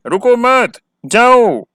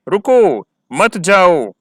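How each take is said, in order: First: High, quick रुको मत together, pause, punched जाओ; higher pitch, break after मत, emphatic जाओ meaning go; gap and stress on जाओ. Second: Drawn-out stressed रुको, pause, then मत जाओ together; gap after रुको. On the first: Teacher recapping the other meaning, gap after मत and stress on जाओ. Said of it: "हमने stress भी किया है". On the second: Teacher recapping the example for students, tone and gap after रुको. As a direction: stop after रुको, stressing it, meaning don't go. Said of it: "इसमें gap भी दिया है". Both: Shown as a demonstration.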